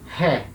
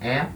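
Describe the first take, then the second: First: The vowel starts with an h-like breath. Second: The vowel starts cleanly with no breath. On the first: "Som com aspiração" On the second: "O som é limpo"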